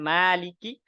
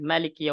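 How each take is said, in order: First: The first vowel is drawn out long. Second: The first vowel is kept short. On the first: "boleh dipanjangkan" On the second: "boleh dipendekkan"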